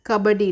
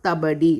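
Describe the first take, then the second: First: The word begins with a k sound. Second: The word begins with a t sound. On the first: The speaker calls it right. "you have to say that as pronounced as Kabaddi" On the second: The speaker calls it wrong. "not Tabadi"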